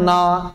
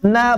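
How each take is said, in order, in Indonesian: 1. Suku kata itu diucapkan berat dan tebal. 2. Suku kata itu diucapkan ringan dan tipis. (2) "Jangan sampai menebalkan nun"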